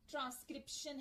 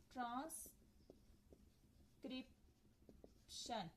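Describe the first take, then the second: First: Said in the usual way. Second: transcription drawn out very slowly and softly, almost whispered; slow careful demo. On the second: Shown as a demonstration. Teacher slowly sounding out transcription for students, whispered and drawn out. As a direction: stretch transcription out slowly so each syllable is heard. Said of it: "ये देखें trans के अंदर एक आ गया".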